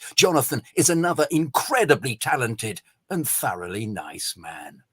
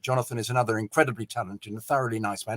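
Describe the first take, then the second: First: It is read slower with emotion and a giggle. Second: It is read plainly at normal speed.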